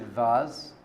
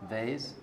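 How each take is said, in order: First: Vase said "vahz", with a long open vowel. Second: Vase said "vayz", rhyming with "days". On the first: Rabbi telling a story, vase pronounced "vahz". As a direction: say vase to rhyme with "spas". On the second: Rabbi offering the other name, vase pronounced "vayz". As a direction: say vase with a long A. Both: Shown as a demonstration. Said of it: "vase, whatever you call it".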